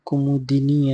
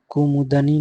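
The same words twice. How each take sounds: First: कुमुदिनी with a clear i after d; correct pronunciation. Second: कुमुदनी with an a after d; wrong pronunciation. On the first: Teacher giving the correct form, i-vowel "kumudini". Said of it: "ऐसे लिखा जाएगा". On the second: Teacher showing the wrong form, a-vowel "kumudani". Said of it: "नहीं". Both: Shown as a demonstration.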